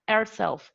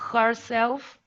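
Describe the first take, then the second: First: The h sound at the start is dropped. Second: The h sound at the start is pronounced. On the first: The speaker calls it right. "We say herself" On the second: The speaker calls it wrong. "We don't say"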